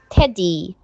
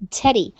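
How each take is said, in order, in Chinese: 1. 第二个音节拖得很长。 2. 第二个音节很快、很短、很轻。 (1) "不要发teddy，这样就不对了" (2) "轻音的部分在后面的你要很快很轻的发过去，会发teddy"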